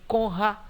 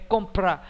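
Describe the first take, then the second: First: The p sound is dropped from the cluster. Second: Both p and r are pronounced together. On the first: The speaker calls it wrong. "nem conra" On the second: The speaker calls it right. "é compra"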